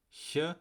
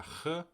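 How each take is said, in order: First: First "Ch" as the soft ich-sound; isolated "Ch", soft as in German "ich". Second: Second "Ch" as the throaty ach-sound; isolated "Ch", scraped as in German "machen"; back ch sound. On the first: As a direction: say "Ch" as a lone soft consonant, like in "ich". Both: Shown as a demonstration. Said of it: "wie bestimmte Konsonanten ausgesprochen werden".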